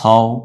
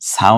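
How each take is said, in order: First: The vowel is a darker, 'o'-like sound. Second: The vowel is an open, long 'a' sound. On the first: The speaker calls it right. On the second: The speaker calls it wrong. "সাও না হয়ে"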